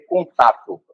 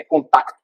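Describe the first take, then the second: First: Said in the usual way. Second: "contato" said as "contacto", with a k before the final t; European Portuguese form. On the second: Shown as a demonstration. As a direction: add a hard k inside "contato": con-TAC-to. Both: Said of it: "Ele não vai escrever contato".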